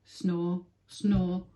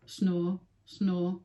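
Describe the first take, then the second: No difference in how they are said.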